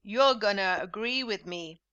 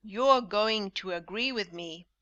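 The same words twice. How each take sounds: First: "gonna" slurred into "gunna"; relaxed spoken "gonna"; informal gonna. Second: "going to" pronounced completely; careful formal "going to"; formal full form. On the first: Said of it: "repeat this informal English". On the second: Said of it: "formal English with full forms". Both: Shown as a demonstration.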